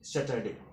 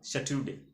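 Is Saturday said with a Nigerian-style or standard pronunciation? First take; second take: standard; Nigerian-style. First: It is said with the standard pronunciation. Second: It is said with a Nigerian-style local pronunciation. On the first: The speaker calls it right. "the correct pronounce would be uh, Saturday" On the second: The speaker calls it wrong. "he pronounced Saturday. Okay, Saturday. So this is not a uh, correct pronunciation"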